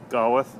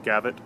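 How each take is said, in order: First: The middle consonant is a W sound. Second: The middle consonant is a V sound. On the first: "would be pronounced with a, a vocal uh, labial uh, velar approximant" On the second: "when the the W is pronounced with a V"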